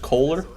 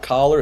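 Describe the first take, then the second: First: The first syllable has a long 'oh' sound. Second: The first syllable sounds like 'coll' in collar. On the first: The speaker calls it right. "it's Kohler" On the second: The speaker calls it wrong. "So it's not Collar"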